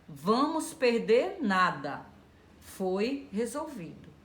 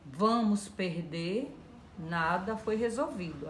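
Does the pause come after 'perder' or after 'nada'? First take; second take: after nada; after perder. First: The pause comes after the word 'nada'. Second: The pause comes after the word 'perder'. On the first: Nothing will be lost because it was resolved. "tirar a vírgula daqui e colocar depois do nada" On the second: Everything will be lost because nothing was resolved. "Aí você perdeu tudo"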